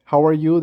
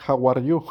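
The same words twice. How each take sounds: First: Said in the usual way. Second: "How are you?" con acento de principiante hispano; pronunciación imperfecta. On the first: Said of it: "en lugar de decir". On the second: Shown as a demonstration. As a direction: dice "How are you?" como un alumno que apenas aprende. ("How are you?" mal pronunciado, con "you" subiendo)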